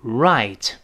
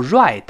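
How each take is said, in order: First: Right with the tongue tip curled back, clear r then t; correct English r. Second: Right with a Chinese 日-like retroflex r; wrong retroflex r. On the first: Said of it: "跟老师再读一遍". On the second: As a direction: say right starting with a buzzing 日 sound. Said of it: "不要读right，不是日". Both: Shown as a demonstration.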